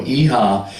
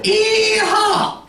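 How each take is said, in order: First: Said in the usual way. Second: High, whooping mock Southern yell; hammed-up rodeo-style holler, pitched way up; Deep South holler. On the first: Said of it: "as hard and as long as you can". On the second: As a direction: let out a piercing Southern whoop. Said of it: "they make a sound".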